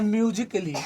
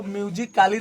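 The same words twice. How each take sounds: First: म्यूजिकली as myu-ji-kuh-lee; correct pronunciation. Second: म्यूजिकली with long aa, myu-ji-KAA-lee; wrong pronunciation. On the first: Teacher giving students the right reading, म्यूजिकली said "kuh-lee". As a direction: reduce the A in म्यूजिकली to a short "kuh". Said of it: "इसको पढ़ना है". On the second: Teacher warning students off a misreading, म्यूजिकली said "kaa-lee". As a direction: sound out the silent A in म्यूजिकली as "kaa". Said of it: "नहीं पढ़ना है". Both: Shown as a demonstration.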